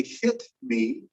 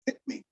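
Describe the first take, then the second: First: Slow, careful HIT ME with the T puffed out; fully released T. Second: Softer HIT ME, no release on the T; casual glottal stop. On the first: Teacher showing what we don't say, careful "hit me" with released T. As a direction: sound out the T in HIT before ME. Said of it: "I could say hit me, but we don't". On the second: Teacher showing casual speech, "hit me" with glottal stop. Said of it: "saying something casually or regularly". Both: Shown as a demonstration.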